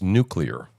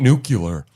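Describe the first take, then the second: First: The word is said like 'new-clee-er'. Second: The word is said like 'new-cue-ler'. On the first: The speaker calls it right. "It's nuclear" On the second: The speaker calls it wrong. "Because it ain't nuclear"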